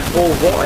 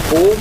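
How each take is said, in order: First: "povó" stressed on final VÓ, open o; end-stress "povó" with an open vowel; stress on last syllable. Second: Said in the usual way. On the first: Shown as a demonstration. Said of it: "não é povo". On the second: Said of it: "é povo".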